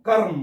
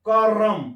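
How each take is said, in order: First: The r and m are joined without a vowel. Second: A short vowel is inserted between r and m.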